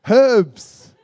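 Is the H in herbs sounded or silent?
sounded. It is said with an H, British style.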